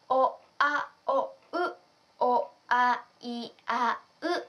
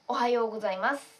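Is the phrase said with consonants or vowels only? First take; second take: vowels only; consonants. First: Only the vowel sounds are pronounced. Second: The consonants and vowels are all pronounced.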